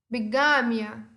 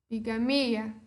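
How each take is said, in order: First: It is said with Spanish word stress. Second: It is said with Portuguese word stress.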